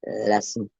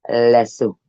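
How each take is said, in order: First: "Lasso" said as "lessoo" in a French way. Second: "Lasso" as "lessoo", firm falling end; French lasso. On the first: Naming the lasso the French way, soft and low. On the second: Repeating the French lasso to viewers, firmly. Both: Shown as a demonstration. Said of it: "That's how they say it in French".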